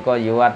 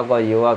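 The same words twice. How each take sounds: The two takes are said the same way.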